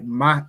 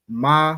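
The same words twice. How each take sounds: First: The syllable is short and sharp. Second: The vowel is drawn out and longer. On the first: It names the letter. "is the letter" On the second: It is the word for how or what. "would be the word for how or what"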